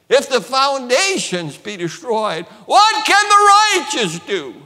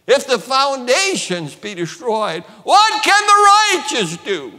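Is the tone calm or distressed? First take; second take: distressed; distressed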